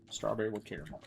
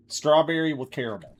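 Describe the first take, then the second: First: Much softer, to himself; muttered to self. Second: Said in the usual way. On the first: Real, not acted. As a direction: mutter the order under your breath. Repeating order softly to self.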